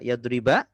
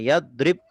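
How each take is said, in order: First: The word ends with a short a vowel. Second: The word ends on a consonant, no vowel. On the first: The verb is in the accusative (nasab) case. "akhirnya fathah" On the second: The verb is in the jussive (jazm) case. "akhirnya su sukun"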